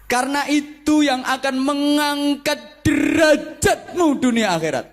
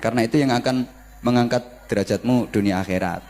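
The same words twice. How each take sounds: First: It has lively, emphatic preacher-style intonation. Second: It is said flatly, without lively intonation.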